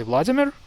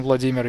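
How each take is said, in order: First: "Vladimir" stressed as VLAD-i-mir; English-style "Vladimir", first syllable stressed. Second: "Vladimir" stressed as vla-DEE-mir; proper Russian "Vladimir", second syllable stressed. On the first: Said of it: "the emphasis to the first syllable". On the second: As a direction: lean on "DI" in "Vladimir". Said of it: "Instead of saying Vladimir". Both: Shown as a demonstration.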